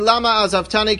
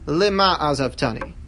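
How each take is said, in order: First: The first word begins with an 'a' vowel. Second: The first word begins with an 'i' vowel. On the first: It asks why this was done to me. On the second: It asks for what purpose this was done to me. "change the pronunciation of one of those words"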